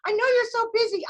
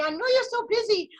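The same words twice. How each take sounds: First: Put-on repeated line in a light Spanish accent, a touch higher; a faint, playful Spanish accent, said again; mock Spanish accent. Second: Lightly put-on Spanish accent, a touch higher; a faint, playful Spanish accent; mock Spanish accent. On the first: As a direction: keep teasing in a slight Spanish accent. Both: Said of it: "I'm working on my Spanish accent".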